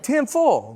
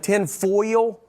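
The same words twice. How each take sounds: First: "Tin foil" said higher with a drawn Southern "tin". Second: "Tin foil?" as a questioning Southern "tin foil", laughing. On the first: A Southern speaker saying "Tin foil" to a store clerk, pitched up. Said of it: "And it's like". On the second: Asking a clerk for foil, "Tin foil?" in a Southern twang. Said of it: "I'd be like". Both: Shown as a demonstration.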